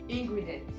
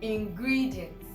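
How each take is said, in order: First: The main stress is not on 'gri'. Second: The main stress is on 'gri'. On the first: The speaker calls it wrong. "We all say ingredients. No" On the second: The speaker calls it right. "G R I in transcription is where the primary stress is"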